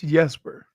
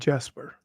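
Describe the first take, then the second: First: The name begins with a Y sound. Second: The name begins with a hard J sound. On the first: The speaker calls it right. "no, it's Jesper" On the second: The speaker calls it wrong. "Dude was calling him Jesper"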